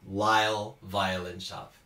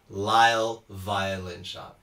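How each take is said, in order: Both takes have the same delivery.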